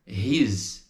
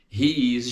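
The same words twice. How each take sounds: First: HE'S as one long syllable ending in z; joined contraction. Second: HE and IS each sounded; two separate words. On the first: Teacher shows students the result, "he's" in one syllable. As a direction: merge it into a single "he's". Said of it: "junta e fica He's". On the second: Teacher shows what joins, "He is" in full. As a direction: say "He is" with both vowels heard. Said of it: "junta e fica". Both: Shown as a demonstration.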